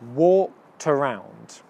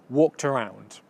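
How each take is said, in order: First: The phrase is said at a slower pace. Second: The phrase is said at a faster pace. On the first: "Now putting them together" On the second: "Now speeding it up a bit"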